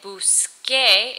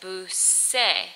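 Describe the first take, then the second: First: The consonant before the last vowel is a k. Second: The consonant before the last vowel is not a k. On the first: The speaker calls it right. "Instead of saying busqué" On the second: The speaker calls it wrong. "it makes a different sound"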